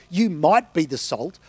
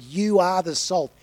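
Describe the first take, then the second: First: Said in the usual way. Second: "You are the salt." with "You" pressed firmly as a flat statement; emphatic. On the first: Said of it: "He didn't say". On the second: Shown as a demonstration. Preacher stressing Jesus's words to the congregation, emphatic on "You". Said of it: "It's emphatic".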